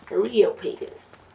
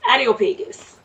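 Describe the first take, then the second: First: Said in the usual way. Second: Areopagus with an unintended Jamaican lilt, the r turning into a d; slight Jamaican accent. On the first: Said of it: "I kinda said it with". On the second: Real, not acted. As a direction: let a hint of Jamaican slip into Areopagus. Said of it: "a little bit with my Jamaican accent".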